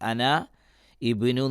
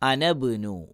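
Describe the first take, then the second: First: The i vowel of ibnu is pronounced separately. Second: The i vowel is dropped, linking ana to bnu. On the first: The speaker calls it wrong. "അന ഇബിനു എന്ന് പറയില്ല" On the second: The speaker calls it right. "വസ്ലിൻ്റെ ഹംസയായതുകൊണ്ട്"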